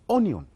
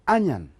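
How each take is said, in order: First: The word is pronounced the way it is spelled. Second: The word is pronounced the native English way. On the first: The speaker calls it wrong. "we think the word is pronounced as onion. That you just pronounce the way as it reads" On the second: The speaker calls it right. "It is pronounced as an onion"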